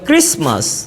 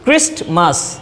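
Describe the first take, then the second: First: The t sound is left out. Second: The t sound is clearly pronounced. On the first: "native স্পিকাররা এই টিটাকে উচ্চারণ করে না" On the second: "এই টিটাকে খুব শক্ত করে উচ্চারণ করি"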